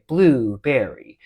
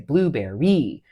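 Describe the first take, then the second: First: The stress falls on the first syllable. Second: The stress falls on the second syllable. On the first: The speaker calls it right. "You you would say blueberry" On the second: The speaker calls it wrong. "You wouldn't say blueberry when you're talking about where the emphasis goes"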